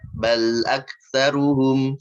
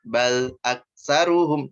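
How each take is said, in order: First: The sound after the consonant flows on briefly. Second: The sound after the consonant stops abruptly. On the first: The speaker calls it right. "ngalirin sedikit latihannya. Yang sesuai, yang benernya" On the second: The speaker calls it wrong. "Loh, itu berhenti"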